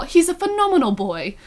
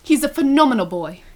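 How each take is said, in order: First: Higher-pitched mock British accent. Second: Lightly put-on British accent. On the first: Host quoting favorite line from the reading, mock British accent. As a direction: imitate Ben in hammed-up British, pitched up. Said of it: "where Ben was all". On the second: Reading Ben's praise of Harry, mild mock British accent. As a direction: read it with a touch of British. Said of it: "British accent".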